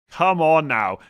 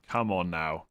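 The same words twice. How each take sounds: First: Louder, higher exasperated repeat; exasperated disbelief. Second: Said in the usual way. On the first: Real, not acted. Host scolding a viewer over benching Gabriel, exasperated disbelief. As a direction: push it out loud, incredulous.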